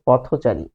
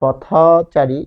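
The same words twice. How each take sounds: First: "পথচারী" lower, as joined-up potho-chari; correct linked pronunciation. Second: "পথচারী" slowly, potha... chari; open linking vowel. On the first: Teacher giving the required form, joined potho-chari. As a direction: say "পথচারী" in one piece with rounded o. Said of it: "তাকে অবশ্যই বলতে হবে". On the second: Teacher showing what can't be said, slow potha-chari. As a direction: hold an unrounded ɔ after থ in "পথচারী". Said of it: "বলতে পারবে না". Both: Shown as a demonstration.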